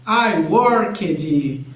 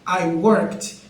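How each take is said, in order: First: The ending is pronounced as an extra 'ed' syllable. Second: The ending is pronounced as a short t sound. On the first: The speaker calls it wrong. "no início a pessoa pronuncia I worked" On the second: The speaker calls it right. "como se tivesse um E T no final, como se não fosse um E D"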